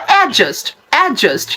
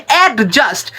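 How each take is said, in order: First: অ্যাডজাস্ট as "A-just"; correct pronunciation. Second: অ্যাডজাস্ট as "ad-just" with clear d; common mispronunciation. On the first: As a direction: silent d in অ্যাডজাস্ট. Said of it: "right উচ্চারণটা হলো". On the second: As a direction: split অ্যাডজাস্ট after a hard d. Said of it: "আপনারা অনেকেই বলেন". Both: Shown as a demonstration.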